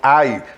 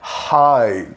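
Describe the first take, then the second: First: It begins directly with the vowel. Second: It begins with a breathy H sound. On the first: The speaker calls it wrong. "não é hello nem I" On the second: The speaker calls it right. "É o H aspirado"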